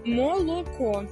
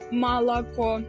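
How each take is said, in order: First: The unstressed vowels are pronounced as o. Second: The unstressed vowels are pronounced as a. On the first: The speaker calls it right. "У нас немає акання" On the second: The speaker calls it wrong. "а не «малако»"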